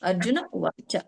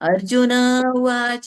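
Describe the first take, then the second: First: No extra sound follows the name. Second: An extra 'ha' sound follows the name. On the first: The speaker calls it right. "ಅರ್ಜುನ ಉವಾಚ ಹೇಳ್ಬೇಕು" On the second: The speaker calls it wrong. "ಇಲ್ಲ"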